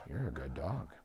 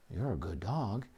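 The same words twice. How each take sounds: First: Soft, low, calm praise to the dog; quiet praise. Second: Softer, lower, calm praise; gently reward the dog, keep it low; quiet praise. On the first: Owner softly praising the dog who stopped jumping, hushed and calm. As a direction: murmur it gently so the dog stays calm. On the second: Owner praising the dog's softer posture, quiet and calm. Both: Shown as a demonstration. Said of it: "Reinforce very quietly".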